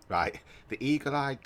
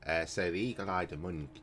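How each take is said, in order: First: Laughing, higher and louder restart. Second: Said in the usual way. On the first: Real, not acted. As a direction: break into a laugh mid-line.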